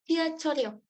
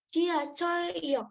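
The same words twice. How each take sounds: First: The parts are joined, carrying the R sound forward. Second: The two parts are said separately, without linking.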